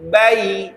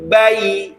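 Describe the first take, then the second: The two takes are said the same way.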